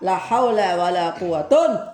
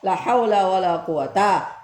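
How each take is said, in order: First: The last word ends in -un. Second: The last word ends in a plain short a. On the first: The second noun is in the nominative case. "boleh rafa" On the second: The second noun is indeclinable with fathah. "maka yang kedua boleh dibaca sama-sama mabni fathah"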